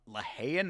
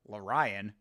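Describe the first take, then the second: First: The middle consonant is an h sound. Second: The middle consonant is a plain r sound. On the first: The speaker calls it right. "That's how you pronounce it? There ain't no H in it" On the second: The speaker calls it wrong. "Who the fuck is Larion?"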